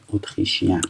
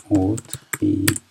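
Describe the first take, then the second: First: Said in the usual way. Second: اتریشین said again slowly and drawn out; slow repeat. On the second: Shown as a demonstration. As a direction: stretch out اتریشین so students catch it. (اتریشین را آهسته و کشیده تکرار کن)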